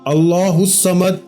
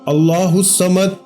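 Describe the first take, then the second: Both takes have the same delivery.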